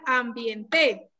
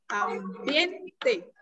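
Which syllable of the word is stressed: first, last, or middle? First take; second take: last; middle. First: The stress is on the last syllable. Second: The stress is on the middle syllable. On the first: The speaker calls it wrong. "Si fuera aguda, diría ambiente" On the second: The speaker calls it right. "en este caso, ambiente ... sería grave"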